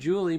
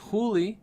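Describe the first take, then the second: First: The name is said with English sounds. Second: The name is said with Spanish sounds. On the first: The speaker calls it wrong. "I've been mispronouncing her name. I keep saying" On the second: The speaker calls it right.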